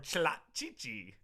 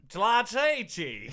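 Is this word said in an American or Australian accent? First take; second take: American; Australian. First: It is said in a plain American accent. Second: It is said in a put-on Australian accent.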